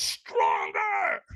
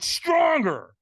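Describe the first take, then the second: First: Harsh, full-throated retold scream; screamed command. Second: High, loud push for more; loud retold command; trainer's demand. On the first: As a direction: scream it like a fierce trainer. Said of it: "So he screams at me". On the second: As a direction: urge it out loudly like a coach. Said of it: "And he went".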